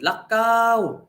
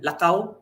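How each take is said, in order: First: The vowel is drawn out long. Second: The vowel is said short and plain. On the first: It means walk intensely or go out often. "you're going to walk intensely" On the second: It means walk. "lakaw means walk"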